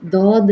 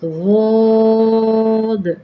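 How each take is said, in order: First: The first sound is a plain tongue-tip d. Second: The first sound uses the side of the tongue. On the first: The speaker calls it wrong. "ये दाल के साथ दौद नहीं है" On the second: The speaker calls it right. "अपनी ज़ुबान की करवट को दाएं करवट ऊपर वाली साइड पे लगाएं"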